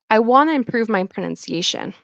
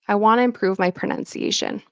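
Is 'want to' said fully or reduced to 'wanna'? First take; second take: reduced; reduced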